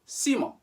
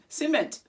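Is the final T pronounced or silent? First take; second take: silent; pronounced. First: The final T is silent. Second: The final T is pronounced. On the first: The speaker calls it right. "final consonants are not usually pronounced in French. So we just say ciment" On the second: The speaker calls it wrong. "You may even pronounce the final consonant"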